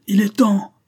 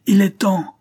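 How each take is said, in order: First: Much higher, louder howl of "Il est temps"; old convict woman howling the signal to revolt. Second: "il est temps" howled high and loud, falling; old convict woman howling the signal again. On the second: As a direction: shriek it again to launch the attack. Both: A narrator's reading. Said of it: "hurla la vieille Flay".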